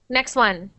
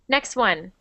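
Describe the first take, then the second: No difference in how they are said.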